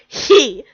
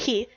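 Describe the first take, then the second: First: The word is said with heavy, exaggerated emphasis. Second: The word is said plainly, without extra force. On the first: The speaker calls it wrong. "Don't say he" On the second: The speaker calls it right. "Just say he"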